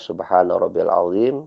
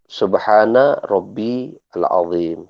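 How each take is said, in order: First: The words are linked together without a break. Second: The words are pronounced separately, each one distinct. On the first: "kalau disambung baca" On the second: "Kalau dipisahkan"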